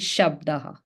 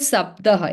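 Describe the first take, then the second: First: The word begins with an 'sh' sound. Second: The word begins with a plain 's' sound. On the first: The speaker calls it right. "it is shabdaha" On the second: The speaker calls it wrong. "It is not sabdaha"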